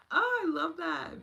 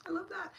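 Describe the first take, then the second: First: High, louder and slower, savouring each word; gushing delight. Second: High, bright-eyed delight; light up at the comment. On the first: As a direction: stretch the oh out with joy. Repeats, even more delighted. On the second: Delighted reaction to viewer comment. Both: Real, not acted.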